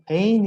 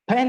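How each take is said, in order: First: The vowel glides as a diphthong. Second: The vowel is a plain, unglided sound. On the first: The speaker calls it right. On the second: The speaker calls it wrong.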